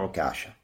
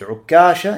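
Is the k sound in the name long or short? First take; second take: short; long. First: The k sound is short, single. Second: The k sound is held long, doubled. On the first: "можно с одной" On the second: "с двумя каф"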